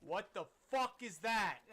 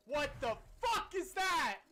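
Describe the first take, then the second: First: Said in the usual way. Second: What the fuck is that said slower and louder, fuck stressed; drawn-out disbelief. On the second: Real, not acted. Repeats question, drawn out.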